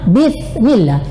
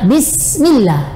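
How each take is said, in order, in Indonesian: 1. Konsonan setelah 'Bi' adalah th yang cadel. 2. Konsonan setelah 'Bi' adalah s yang mendesis. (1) "bukan Bismillah" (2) "Yang benar adalah Bismillah"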